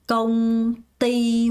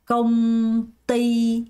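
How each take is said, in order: Both takes have the same delivery.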